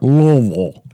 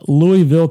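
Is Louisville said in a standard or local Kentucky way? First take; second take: local Kentucky; standard. First: It is said in a local Kentucky drawl. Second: It is said in a standard, general way.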